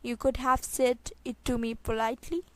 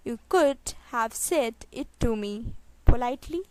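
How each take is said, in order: First: Said in the usual way. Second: Spaced out, pause before the last word. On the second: Shown as a demonstration. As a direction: set the final word apart. Teacher repeats sentence slowly. (धीरे, आख़िरी शब्द से पहले रुककर)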